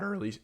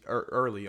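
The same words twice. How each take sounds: First: Voice crack. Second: Said in the usual way. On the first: Real, not acted. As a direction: voice cracking on early. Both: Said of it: "Oh my God, I voice crack".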